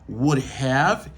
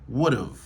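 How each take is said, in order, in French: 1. Les deux mots sont prononcés en entier, sans réduction. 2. Le have est raccourci en contraction. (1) "Au lieu yo dit would have" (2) "yo utilisé la forme contractée"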